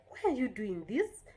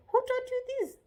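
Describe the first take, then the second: First: Said in the usual way. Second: Very high, loud demand; accusing question. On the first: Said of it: "No, you're supposed". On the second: Shown as a demonstration. Parent confronting a mischievous child, accusing question. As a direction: pitch shoots up, demand an answer. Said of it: "you're not supposed to say".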